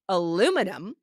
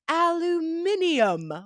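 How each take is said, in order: First: It is said with an American pronunciation. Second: It is said with a British pronunciation. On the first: "we say aluminum" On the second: "in the U K and other colonies ... they say aluminium"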